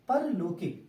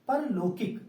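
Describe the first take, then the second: The two takes are said the same way.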